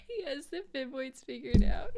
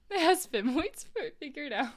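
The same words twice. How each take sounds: First: Punchline repeated while laughing. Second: Said in the usual way. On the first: Real, not acted. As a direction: squeeze it out between laughs.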